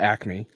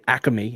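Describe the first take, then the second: First: It is said with a standard, non-regional pronunciation. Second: It is said with a Philadelphia regional pronunciation.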